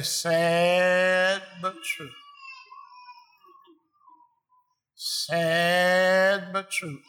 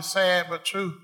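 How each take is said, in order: First: Very slow, drawn-out murmur; mournful agreement. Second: Said in the usual way. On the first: Retold or imitated. Front-row churchgoer answering the preacher, slow drawl. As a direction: draw every word out, heavy-hearted. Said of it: "he'll say". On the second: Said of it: "he kept on hollering".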